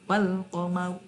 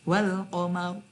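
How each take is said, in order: Both takes have the same delivery.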